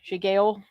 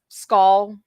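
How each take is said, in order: First: The name is said with two syllables, like sigale. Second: The name is said as one syllable, like skull. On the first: The speaker calls it wrong. "not shi- ski- shigale" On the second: The speaker calls it right. "the actual pronunciation of what it's it's supposed to sound like is skull"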